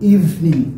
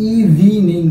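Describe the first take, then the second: First: It has two syllables with the middle vowel dropped. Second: It has three syllables with the middle vowel sounded. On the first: The speaker calls it right. "এই যে মাঝখানের ই, এটা কিন্তু উচ্চারণ হয় না।" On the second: The speaker calls it wrong. "এই প্রনাউন্সিয়েশনটা কিন্তু ইভিনিং না"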